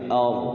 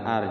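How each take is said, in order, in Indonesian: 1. R-nya tebal dan berat. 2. R-nya tipis dan ringan. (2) "jangan tipis"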